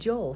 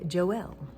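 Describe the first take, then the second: First: The name is said the speaker's usual way. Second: The name is said the Filipino way.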